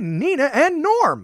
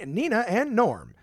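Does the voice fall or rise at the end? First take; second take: rises; falls. First: The voice goes up at the end. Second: The voice goes down at the end. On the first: The speaker calls it right. "I just kept raising my tone" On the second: The speaker calls it wrong. "don't go down at the end"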